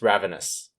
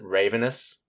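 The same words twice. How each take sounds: First: The first syllable has a short a, like rav. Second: The first syllable sounds like the word raven. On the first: The speaker calls it right. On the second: The speaker calls it wrong. "just don't pronounce it"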